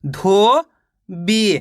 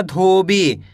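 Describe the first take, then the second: First: धोबी split as धो, pause, बी; long rising धो, then separate बी; धोबी slowly sounded out in two parts; syllable by syllable. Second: Said in the usual way. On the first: Shown as a demonstration. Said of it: "एक अक्षर का उच्चारण करके". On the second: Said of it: "मिलके बन जाएगा".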